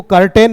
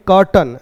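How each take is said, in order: First: कर्टेन with a long e in the second syllable, kar-TEN; wrong pronunciation. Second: कर्टन with a short neutral second vowel, KAR-tn; कर्टन as in English curtain, weak last syllable; correct pronunciation. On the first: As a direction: say कर्टेन as kar-tain, stretching the e. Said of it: "कर्टन ऐसे पढ़ेंगे". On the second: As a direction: say कर्टन clipped as kur-tn, no e sound. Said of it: "इसको कर्टेन नहीं पढ़ेंगे". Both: Shown as a demonstration.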